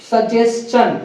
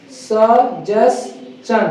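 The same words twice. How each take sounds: First: "सजेशन" said whole as sə-jes-chən; ch-ending pronunciation. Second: "सजेशन" very slow as sə... jes... chən; syllable by syllable. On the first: Teacher giving students the word, "सजेशन" whole with -s-chən ending. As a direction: say "सजेशन" in one go with ch after the s. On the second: Teacher drilling students, "सजेशन" broken slowly into three syllables. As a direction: pause between each syllable of "सजेशन". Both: Shown as a demonstration. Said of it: "इसको बोलेंगे क्या?".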